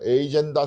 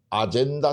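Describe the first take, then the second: First: The word begins with an 'ay' sound. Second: The word begins with an 'ah' sound.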